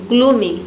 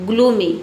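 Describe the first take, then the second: No difference in how they are said.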